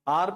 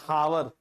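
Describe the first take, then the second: First: The word starts with a vowel, no h. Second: The word starts with an h sound. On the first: The speaker calls it right. "आर पढ़ते हो" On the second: The speaker calls it wrong. "ऐसे तो नहीं बोलते हावर, हा नहीं होता"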